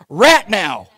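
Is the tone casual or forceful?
forceful. It is said in a serious, forceful tone. The demand is meant seriously. The speaker calls it right. "get serious"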